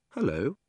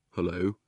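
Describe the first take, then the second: First: Put-on higher-pitched girl's hello; light, higher voice for a young girl; Polly's greeting. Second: Put-on the boy's reply, pitched under the girl's; boy's greeting. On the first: Polly greets the boy next door, higher girl's voice. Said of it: "said Polly". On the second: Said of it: "said the boy".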